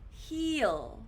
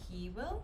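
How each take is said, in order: First: The words merge into one short syllable. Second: Two full words are said separately.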